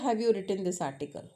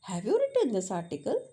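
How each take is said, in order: First: The voice falls at the end. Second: The voice rises at the end. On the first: It sounds like a statement. The speaker calls it wrong. "That's a statement tone" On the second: It is asked as a question. The speaker calls it right. "Ending must बी raised"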